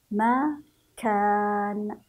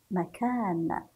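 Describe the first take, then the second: First: "مكان" very slowly split as ma, then a long loud kaan; syllable by syllable. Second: Said in the usual way. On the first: Shown as a demonstration. Teacher shows pupils the kaf in "مكان", each syllable drawn out. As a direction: break "مكان" in two and hold the long ā. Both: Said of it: "سنفتح الكاف عند النطق".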